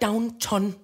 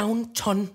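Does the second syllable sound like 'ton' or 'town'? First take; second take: ton; ton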